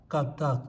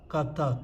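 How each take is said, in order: No difference in how they are said.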